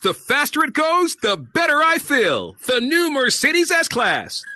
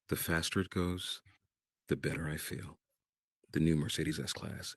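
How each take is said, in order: First: A big, loud, booming announcer voice. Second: A low, soft, just-woken-up voice. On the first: The speaker calls it wrong. "with this big voice" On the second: The speaker calls it right. "bring it down. The voice you use when you first wake up"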